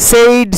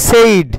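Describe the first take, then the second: Both takes have the same delivery.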